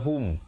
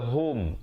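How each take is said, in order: First: The vowel sounds like a rounded 'u'. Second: The vowel sounds like an open 'o'. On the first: The speaker calls it right. "yang betulnya hum" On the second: The speaker calls it wrong. "jangan baca hum"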